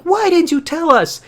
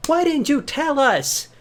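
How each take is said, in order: First: Much higher, louder indignant mother voice; shrill mock mom. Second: Much higher and slow, same loudness, drawn out; slow mock disbelief. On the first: Mother scolds her son for hiding it, high indignant voice. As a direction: play the outraged mom. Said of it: "And Linda's like". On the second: Parents question their son again, high slow disbelief. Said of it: "It's like".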